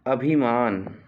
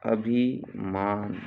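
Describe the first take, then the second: First: Said in the usual way. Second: "अभिमान" slow, pause after अभि; split slowly for dictation. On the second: Shown as a demonstration. Teacher dictating a spelling, अभिमान slowly in two parts.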